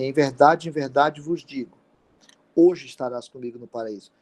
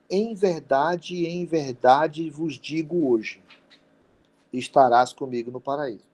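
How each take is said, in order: First: The pause comes right before 'hoje'. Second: The pause comes right after 'hoje'.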